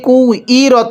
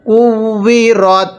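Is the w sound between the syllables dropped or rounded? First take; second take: dropped; rounded. First: The w sound is dropped and said as i. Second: The w sound is said with rounded lips. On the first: The speaker calls it wrong. "অনেকেই কু ই রত পড়ি, ওয়াওকে ই পড়লে শুদ্ধ হবে না" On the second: The speaker calls it right. "ওয়াউজের হুই উচ্চারণের সময় আমরা ঠোঁটগুলো গোল করলে পড়াটা শুদ্ধ হয়ে যাবে"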